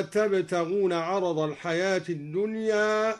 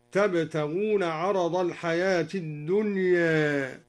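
First: Said in the usual way. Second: الدنيا with its final alif tilted halfway to e, slow chant; slight imala. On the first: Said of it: "قوله تعالى". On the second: Shown as a demonstration. Teacher demonstrating Duri's reading: الدنيا with taqlil. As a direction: recite الدنيا with a half-bent ending. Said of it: "قلل الدوري ألف الدنيا".

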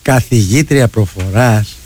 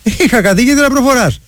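First: Low, slow drawn-out teasing; teasing mock quote. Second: Retold message. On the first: Radio host retelling a colleague's joke, low slow teasing. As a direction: draw it out low in mock amazement. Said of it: "το παίρνει στο χαβαλέ και του λέει". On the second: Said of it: "Και του στέλνω μήνυμα εγώ".

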